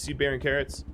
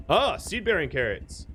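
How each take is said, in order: First: Said in the usual way. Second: Lightly faked German-Austrian accent, higher pitch; terrible German-Austrian accent. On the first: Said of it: "I don't know why I said seed-bearing carrots in". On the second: Streamer spotting crop in game, terrible German-Austrian accent. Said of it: "in, like, a terrible German, Austrian accent".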